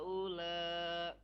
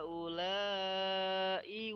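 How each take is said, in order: First: The word stops without its final glottal sound. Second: The word flows on with its final glottal sound. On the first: The reading stops at the end of the verse. "kalau yang di akhir ilaha ula itu kita berhenti jadi hamzahnya nggak dibaca" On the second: The reading continues without stopping here. "kenapa dilanjut? Karena di situ eh, kita nggak berhenti"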